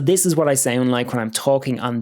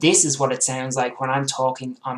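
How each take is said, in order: First: The voice sounds clear, full and high quality. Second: The voice sounds thinner and lower in quality. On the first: The speaker calls it right. "this U S B professional, what I would call professional microphone" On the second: The speaker calls it wrong. "my Logitech webcam"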